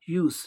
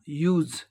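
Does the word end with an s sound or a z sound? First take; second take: s sound; z sound. First: The word ends with a hissing s sound. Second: The word ends with a buzzing z sound. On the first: The word is used as a noun. "जब noun की तरह यूज का प्रयोग होता है तो इसका उच्चारण क्या होता है? यूज, सौ होगा" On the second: The word is used as a verb. "वर्ब की तरह ... उसका उच्चारण क्या होगा? ज"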